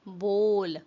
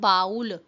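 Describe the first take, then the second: First: The vowel sounds like 'oh' in 'go'. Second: The vowel sounds like 'ow' in 'cow'. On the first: The speaker calls it right. "It's बोल" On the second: The speaker calls it wrong. "It's not बाउल"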